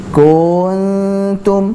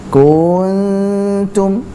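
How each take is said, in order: Both takes have the same delivery.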